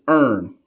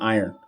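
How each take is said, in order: First: It is said in a Baltimore accent. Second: It is said in a standard accent.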